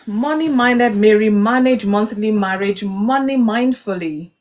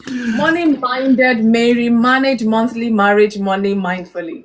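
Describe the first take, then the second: First: Slow, careful tongue twister; slow tongue twister demo. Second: Starts slow, loud on the twister; careful, deliberate twister; tongue twister, slow start. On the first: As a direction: spell out each word slowly. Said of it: "Three times without blabbing". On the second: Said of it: "fast as possible". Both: Shown as a demonstration.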